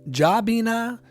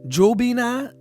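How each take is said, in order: First: The first syllable sounds like 'Ja'. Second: The first syllable sounds like 'Joe'. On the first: "Joe or Ja?" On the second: "Joe or Ja?"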